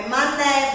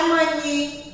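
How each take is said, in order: First: "mané" ending in an open, stressed É; accented open É. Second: "mani" ending in an I sound; wrong final sound. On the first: Teacher explaining the accent mark, final É said open. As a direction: keep the end of "mané" an open É. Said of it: "porque tem um acento". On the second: Teacher showing the wrong reading, final E said as I. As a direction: close the final vowel of "mani" to I. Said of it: "mas não tem som de I". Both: Shown as a demonstration.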